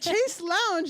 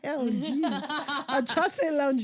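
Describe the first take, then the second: First: The first word sounds like 'chase'. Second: The first word sounds like 'shass'. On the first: It sounds like a bank's airport lounge. "I'm like Chase Lounge. That sounds like a fucking airport" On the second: It names the piece of furniture. "I like chasse"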